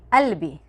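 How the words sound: It starts with a glottal stop.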